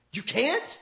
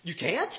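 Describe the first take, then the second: First: Quiet rising challenge, drawn out a little; preacher quietly challenging the outcry; softer incredulous echo. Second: Much softer, lower, quietly mocking question; a preacher softly mocking his critics; incredulous retort. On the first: Retold or imitated. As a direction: repeat it softly, letting it hang. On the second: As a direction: toss it back, daring them. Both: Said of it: "I'm standing there saying".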